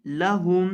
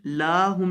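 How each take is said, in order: First: लहुम with a short first vowel; correct short la. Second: लाहुम with a long first vowel; wrong long la. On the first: Teacher models short लहुम, loud and clear. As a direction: keep the la in लहुम short and clean. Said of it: "लाहुम नहीं, लहुम". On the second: Teacher shows the wrong long-vowel लाहुम. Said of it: "लाहुम नहीं". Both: Shown as a demonstration.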